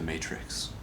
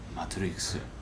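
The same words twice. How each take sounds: First: The word is said with a plain English accent. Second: The word is said with a put-on Japanese accent.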